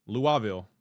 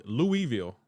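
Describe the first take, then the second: First: "Louisville" as LOO-uh-vil, falling at the end; local pronunciation. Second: "Louisville" as LOO-ee-vil, falling at the end; alternative pronunciation. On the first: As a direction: say "Louisville" with uh in place of ee. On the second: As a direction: say "Louisville" with a clear ee in the middle. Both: Shown as a demonstration. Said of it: "It's pronounced Louisville".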